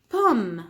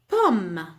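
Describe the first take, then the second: No difference in how they are said.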